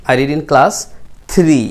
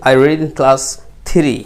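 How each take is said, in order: The two takes are said the same way.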